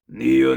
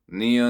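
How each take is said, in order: First: The voice is low, deep and dark. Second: The voice is high, bright and childlike. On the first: "lower, deeper false chord like" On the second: "we are brightening the sound color of our voice"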